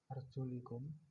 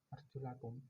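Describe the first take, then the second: First: The vowel after the L is 'i'. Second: The vowel after the L is 'a'. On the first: The feet are to be wiped. "kasroh pada lam" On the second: The feet are to be washed. "dengan fathah pada lam"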